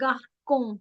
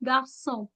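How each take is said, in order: First: The middle consonant sounds like k. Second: The middle consonant sounds like s. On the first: The speaker calls it wrong. "It's never garcon" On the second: The speaker calls it right. "it's garçon, garçon, s ki sound"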